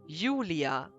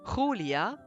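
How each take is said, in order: First: The name is said with a German pronunciation. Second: The name is said with a Spanish pronunciation. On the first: "in German, you say Julia" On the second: "Spanish, you would say Julia"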